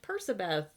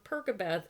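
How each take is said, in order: First: The middle consonant is an s sound. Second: The middle consonant is a k sound.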